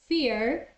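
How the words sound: The final R is clearly pronounced. "in American English, you will hear the R"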